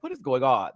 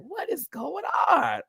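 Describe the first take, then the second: First: Said in the usual way. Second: Higher and slower, stretched out in shock; high, drawn-out gasp of disbelief at the stage. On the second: Retold or imitated. To viewers, recalling the lip sync, high slow disbelief. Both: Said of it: "I was like".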